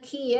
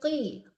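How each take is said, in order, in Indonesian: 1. Bunyi k tipis, diucapkan di depan. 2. Bunyi q tebal, diucapkan jauh di dalam tenggorokan. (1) "jangan ki ya" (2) "Qafnya ditebalkan"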